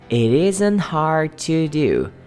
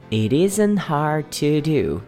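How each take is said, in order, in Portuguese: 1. As palavras são ligadas em um fluxo só. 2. As palavras são ligadas em um fluxo só.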